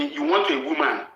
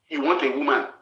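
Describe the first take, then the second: First: Jumps way up high, mocking her wish. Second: Said in the usual way. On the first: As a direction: squeak "want" up high like teasing. High mocking take of repeat.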